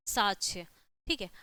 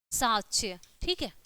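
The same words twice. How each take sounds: The two takes are said the same way.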